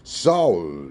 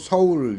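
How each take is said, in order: First: The S is a tense, hard sound. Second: The S is a soft, plain sound. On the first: The speaker calls it right. "어가 모음이기 때문에 서울 이렇게 발음하겠죠" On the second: The speaker calls it wrong. "서울 이런 발음은 없어요"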